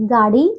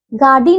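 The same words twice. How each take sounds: First: गाड़ी pitched low, as the correction; correct pronunciation. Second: गाड़ी as the faulty form, set up for correction; mispronunciation. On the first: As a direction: give गाड़ी lower as the right form. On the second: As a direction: say गाड़ी as the wrong take. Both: Shown as a demonstration. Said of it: "गाड़ी नहीं".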